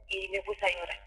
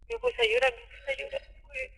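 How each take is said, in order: First: Said in the usual way. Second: Real tears rising, words almost lost; tearful. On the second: Real, not acted. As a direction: voice breaks higher, then fades into near-whisper. Recounting the assault, crying.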